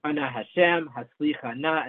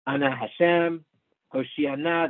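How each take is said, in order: First: Haslichana stressed on the cha syllable; stress on last mark. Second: Hoshiana stressed on the shi syllable; stress on the shin. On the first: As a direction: Ana Hashem, then has-li-CHA-na for Haslichana. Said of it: "the stress is on the last one". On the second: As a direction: Ana Hashem, then ho-SHI-a-na for Hoshiana. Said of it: "the stress is on that shin". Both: Shown as a demonstration.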